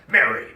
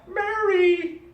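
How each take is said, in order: First: The name is said in an angry tone. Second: The name is said in a happy tone. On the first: "as in very angry" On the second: "as in very happy"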